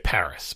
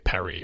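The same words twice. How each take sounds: First: It is said with an English pronunciation. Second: It is said with a French pronunciation. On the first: "We say Paris" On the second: "They say Paris or whatever"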